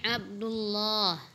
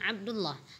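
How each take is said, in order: First: The vowel in 'lah' is drawn out long. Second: The vowel in 'lah' is short. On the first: The speaker calls it right. "panjangkan lafaz Allahnya, ... tapi Abdullah" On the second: The speaker calls it wrong. "bukan Abdullah"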